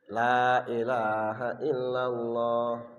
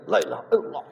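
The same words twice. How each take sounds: First: It is said at a normal, careful pace. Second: It is rushed and slurred, barely articulated. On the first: The speaker calls it right. "tiga puluh tiga pertama insya Allah normal" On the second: The speaker calls it wrong. "tiga puluh tiga yang ketiga lah itu tinggal geleng"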